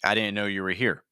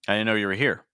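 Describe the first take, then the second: First: The stress is on the word here. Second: The stress is on the word here.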